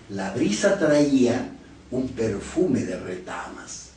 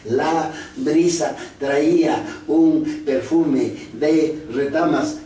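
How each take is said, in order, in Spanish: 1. Se lee con fluidez, en grupos de frases naturales. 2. Se lee a trompicones, palabra por palabra.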